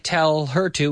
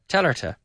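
First: Each word is said fully and separately. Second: The words run together with the h dropped. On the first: The speaker calls it wrong. "But we don't say tell her to" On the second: The speaker calls it right. "we say telerta"

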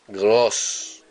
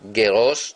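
First: The g runs straight into the r. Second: A short vowel separates the g and r. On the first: The speaker calls it right. "los dos puntitos son shva" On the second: The speaker calls it wrong. "No decimos geros. Geros no"

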